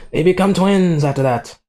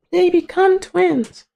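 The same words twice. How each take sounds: First: Raised pitch, stretched on "become". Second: Slow, very high squeaky repeat; mock falsetto. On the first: Real, not acted. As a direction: lift "become" high and let it fall. Repeats plot point, first take. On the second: Repeating the plot point to viewers, mock falsetto. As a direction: stretch it out in a tiny falsetto.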